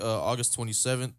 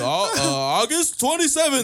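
First: It is said in a flat, low-energy way. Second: It is said in a lively, energetic way. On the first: The speaker calls it wrong. "Why don't you sound more, like, lively when you say shit?" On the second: The speaker calls it right. "let me say this again"

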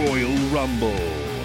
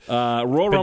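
First: It is said in a put-on announcer-style voice. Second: It is said in a normal speaking voice.

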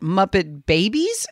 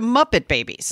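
First: The stress falls on the word Babies. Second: The stress falls on the word Muppet.

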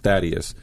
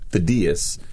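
First: The name is said the usual English way. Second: The name is said the Greek way. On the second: "my name is actually pronounced Thaddeus, which is the Greek pronunciation"

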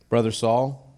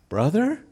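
First: It is said boldly, as a confident greeting. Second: It is said fearfully, as a hesitant question.

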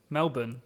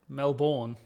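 First: The second syllable is short and reduced. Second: The second syllable is a full 'bourne'. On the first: The speaker calls it right. "How you say it?" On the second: The speaker calls it wrong. "What did I say?"

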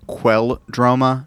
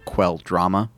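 First: The middle syllable sounds like 'droh'. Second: The middle syllable sounds like 'drah'. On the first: The speaker calls it right. "It's Ulrich Quelldroma" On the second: The speaker calls it wrong. "not Quelldrama"

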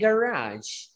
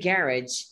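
First: It is said with an American pronunciation. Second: It is said with a British pronunciation. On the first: "In American English, we say garage" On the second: "And in British English, we tend to say garage"

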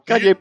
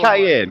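First: It is said like the name Kanye. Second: It is said as kai-EN. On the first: The speaker calls it wrong. "It's not called Kanye" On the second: The speaker calls it right. "Cayenne, that's how you pronounce it"

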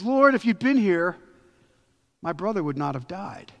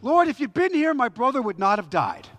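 First: The voice sounds calm and trusting. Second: The voice sounds harsh and bitter. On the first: She is expressing faith in him. "we hear that as an expression of faith" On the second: She is blaming him for not coming. "What if she said it like this?"

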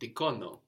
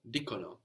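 First: The stress is on the second syllable. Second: The stress is on the first syllable. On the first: The speaker calls it wrong. "not dicono, no" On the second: The speaker calls it right. "no, dicono"

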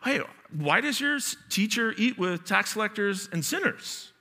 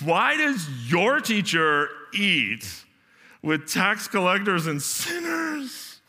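First: It sounds like a sincere, honest question. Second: It sounds like a condescending Valley Girl voice.

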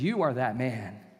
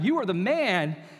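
First: It sounds like a serious, direct accusation. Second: It sounds like casual, admiring praise.

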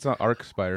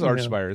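First: The first syllable ends with a 'k' sound. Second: The first syllable ends with a 'ch' sound. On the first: The speaker calls it wrong. "It's not Arcspire" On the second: The speaker calls it right. "it is Archspire, isn't it?"

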